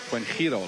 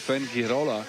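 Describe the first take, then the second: First: The name is said with a Spanish-sounding pronunciation. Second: The name is said with an English-sounding pronunciation. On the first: The speaker calls it right. "I should say" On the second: The speaker calls it wrong. "still mess up"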